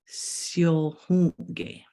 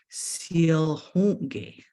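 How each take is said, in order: First: The syllables run together in one smooth word. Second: The syllables run together in one smooth word.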